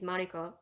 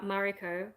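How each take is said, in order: First: The name is said with Japanese-style sounds. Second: The name is said with English-style sounds.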